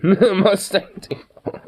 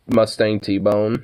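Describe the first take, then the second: First: Laughing through the words, very slow. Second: Said in the usual way. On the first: Shown as a demonstration. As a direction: giggle it out slowly.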